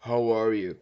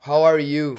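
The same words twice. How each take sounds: First: Said in the usual way. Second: Loud put-on Native American English accent; imitated accent. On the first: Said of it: "Como se eles, peraí, olha eu". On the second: Imitating the accent for viewers, loud and put-on. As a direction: say it the way he imagines they talk. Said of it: "tom grave na voz e um pouco mais pausado".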